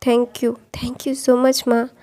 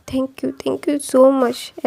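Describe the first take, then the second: First: Slow, breathless whisper; whispered thanks. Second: Very slow, drawn-out tearful thank you; mild retold sob in a slow thank you. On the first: Acted. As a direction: whisper it softly into her arms. Crying son thanks his mother. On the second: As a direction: stretch each word out like you're about to cry. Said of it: "ऐसा बोल के ना वो रोने लगा था".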